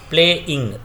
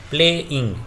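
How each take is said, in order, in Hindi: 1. शब्द छोटे-छोटे अलग हिस्सों में टूटा हुआ है। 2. शब्द छोटे-छोटे अलग हिस्सों में टूटा हुआ है।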